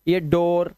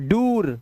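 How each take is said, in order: First: The vowel is an o sound. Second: The vowel is not an o sound. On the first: The speaker calls it right. "आ और ओ की आवाज भी होती है double ओ के अंदर" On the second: The speaker calls it wrong. "नहीं, ये दोनों ही नहीं है"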